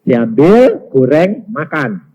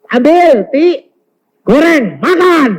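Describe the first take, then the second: First: Measured voice of God, word by word; spaced-out divine instruction; God's instruction. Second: High, loud wifely command; imitated wife, raised voice; wife giving orders. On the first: Retold or imitated. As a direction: give each word as a separate order. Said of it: "Tuhan bilang". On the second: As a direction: call each order out loudly to the maid. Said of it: "Lalu istri bilang".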